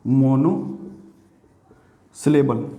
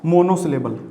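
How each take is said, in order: First: "monosyllable" in two parts, long pause after "mono"; lower, very slow "monosyllable", split for writing down; slow dictation. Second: Said in the usual way. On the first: Shown as a demonstration. Teacher writing the next word for the class, slow dictation.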